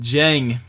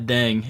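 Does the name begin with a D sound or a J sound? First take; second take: J sound; D sound. First: The name begins with a J sound. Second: The name begins with a D sound. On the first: The speaker calls it right. "it's pronounced Jang" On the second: The speaker calls it wrong. "not Deng"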